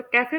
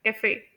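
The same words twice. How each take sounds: First: कैफ़े with the first syllable CA stressed; common mispronunciation. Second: कैफ़े with the final FE stressed; usual French-derived stress. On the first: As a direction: say कैफ़े front-heavy, "KA-fe". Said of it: "आप लोग इस word को कैफ़े pronounce करते होंगे". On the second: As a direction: say कैफ़े as "ka-FAY". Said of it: "इसे usually pronounce किया जाता है". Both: Shown as a demonstration.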